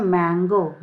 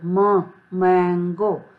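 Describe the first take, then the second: First: Said in the usual way. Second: म split off first, then मैंगो slowly; मैंगो broken into म and the word, slowly; sound split. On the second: Shown as a demonstration. (म को अलग करके धीरे मैंगो) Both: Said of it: "एम का pronunciation कैसे है".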